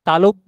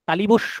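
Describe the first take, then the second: First: The word is said as talobbo, with no additions. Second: The word is said as talibosso, with added sounds. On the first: The speaker calls it right. "তালব্য স" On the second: The speaker calls it wrong. "তালিবস্য নয়"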